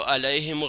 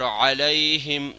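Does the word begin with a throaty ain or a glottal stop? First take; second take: glottal stop; ain. First: It begins with a light glottal stop. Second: It begins with a deep throaty ain sound. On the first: The speaker calls it wrong. "अलैहिम गलत हो गया" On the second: The speaker calls it right. "अलैहिम सही"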